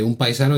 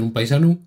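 First: Said in the usual way. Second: "paisano" ending in a u sound; Asturian -u ending. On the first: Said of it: "en vez de decirte un paisano". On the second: Shown as a demonstration. Showing how Asturians speak, "paisano" ending in -u. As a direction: turn the final o of "paisano" into u. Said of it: "dicen un paisano".

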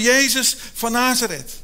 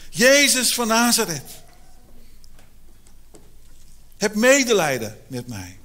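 First: Calling out to Jesus by the roadside; blind man calling out. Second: Pleading call. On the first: Blind beggar calls out to passing Jesus, loud call. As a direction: raise the voice to reach across a crowd. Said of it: "Hij begint te roepen". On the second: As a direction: stretch the name out as you beg. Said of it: "En hij begint te schreeuwen". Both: Retold or imitated.

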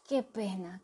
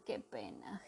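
First: Said in the usual way. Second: Whispered qué pena, soft and unvoiced; moaning whisper. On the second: Maldeocus moaning in a whisper over the lost one. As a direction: breathe qué pena as a sorry moan. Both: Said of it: "gemió Maldeocus".

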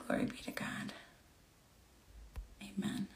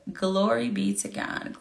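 First: Breathy whisper of praise. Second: Said in the usual way. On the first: Real, not acted. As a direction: whisper it under your breath.

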